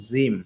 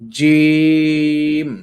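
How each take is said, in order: First: The first consonant is soft and light. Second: The first consonant is strong, thick and pushed. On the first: The speaker calls it wrong. "অনেকে জিমটাকে জিম বলেন, জিম। আসলে না।" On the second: The speaker calls it right. "জিম একটা ধাক্কা দিতে হবে ভিতর থেকে মোটা করে।"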